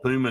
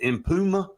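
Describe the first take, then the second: First: The name is said without an M sound. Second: The name is said with an M sound. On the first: "and the M silent" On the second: "Is it Impuma? I believe is how you pronounce it"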